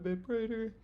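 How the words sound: The resonance is the darkest of the three. "it can get a bit brighter"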